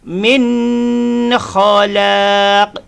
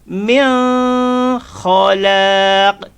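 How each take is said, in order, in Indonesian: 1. Bunyi n-nya berdengung dan dipanjangkan. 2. Bunyi n-nya tersembunyi dan hampir tidak terdengar. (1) "kalau kita baca dengung" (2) "kita baca sembunyi"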